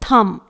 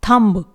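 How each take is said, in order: First: No b sound is heard after the m. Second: A b sound is heard after the m. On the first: The speaker calls it right. "It is थम" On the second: The speaker calls it wrong. "It is not थम्ब, ये गलत हो जाएगा"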